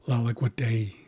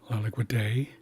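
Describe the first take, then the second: Both takes have the same delivery.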